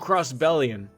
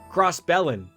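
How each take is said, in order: First: The word ends with an 'ee-un' sound. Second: The word ends with a short 'in' sound. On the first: The speaker calls it right. "it should be crossbellion" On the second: The speaker calls it wrong. "not crossbellin"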